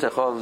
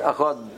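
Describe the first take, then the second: First: The word ends with a soft th sound. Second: The word ends with a hard d sound. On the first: "you pronounce a Dalit without a Dogesh as a th sound" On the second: "If you want to pronounce a dalet"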